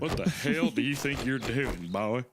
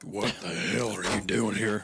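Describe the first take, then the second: First: Slower, gruff dad voice, drawn out; angry dad. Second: Slower, gruff dad voice; angry dad. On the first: Dad scolding the boy on the floor, slow gruff voice. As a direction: lean into the annoyed dad. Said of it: "scurry back to my room". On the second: Construction-worker dad finding his kid on the floor, slow gruff voice. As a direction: growl it as the annoyed dad. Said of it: "He'd be like". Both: Retold or imitated.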